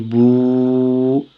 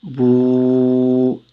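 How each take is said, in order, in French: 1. La voyelle est prolongée. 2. La voyelle est prolongée.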